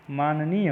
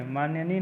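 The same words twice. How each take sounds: First: माननीय as "maa-na-neey"; no y after the first n of माननीय; correct pronunciation. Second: माननीय as "maanya-neey"; teacher voicing माननीय with nya in the middle; wrong pronunciation. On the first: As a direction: clean double n in माननीय. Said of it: "होता है". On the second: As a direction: slip a y after the first n in माननीय. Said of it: "नहीं है". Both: Shown as a demonstration.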